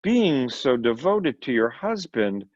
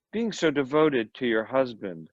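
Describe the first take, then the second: First: A faltering, unsure repeat; hesitating. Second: Said in the usual way. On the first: A narrator's reading. Lawyer repeats himself to the sharp wife, hesitating. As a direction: say it again, slightly wrong-footed. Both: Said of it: "He responded in a hesitating manner".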